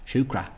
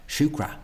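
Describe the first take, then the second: No difference in how they are said.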